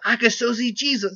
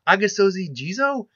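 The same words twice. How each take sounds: First: It is said in a put-on character voice. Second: It is said in the speaker's normal voice. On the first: "See, I can do it with his voice" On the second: "I can't say it normally"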